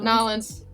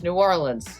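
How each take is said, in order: First: The name is squeezed together into two syllables. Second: The name is said in full, all syllables clear. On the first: The speaker calls it wrong. "Not Nolans" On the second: The speaker calls it right. "It's New Orleans, okay?"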